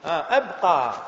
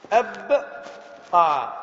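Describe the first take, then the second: First: Said in the usual way. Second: أبقى stretched very long; very slow drawn-out word. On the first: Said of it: "لكن في الأمر ترجع همزة التعدية". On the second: Shown as a demonstration. Teacher repeating the example, drawing out أبقى. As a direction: hold every sound of أبقى.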